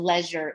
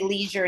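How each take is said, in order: First: It is said with a British pronunciation. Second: It is said with a non-British pronunciation. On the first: "and leisure in British" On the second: "we say leisure in English"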